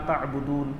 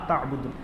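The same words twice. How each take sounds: Both takes have the same delivery.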